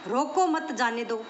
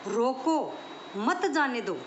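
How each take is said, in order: First: There is a pause right after 'mat'. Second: There is a pause right after 'roko'. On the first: Do not stop him, let him go. "रोको मत, इसे जाने दो" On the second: Stop him, do not let him go. "किसको रोक लो, जाने मत दो"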